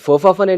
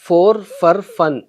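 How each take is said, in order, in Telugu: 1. మొదటి రెండు పదాలు త్వరగా కలిసిపోయి 'fofa' లా వినిపిస్తాయి. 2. ప్రతి పదాన్ని విడిగా, పూర్తిగా ఉచ్చరిస్తారు.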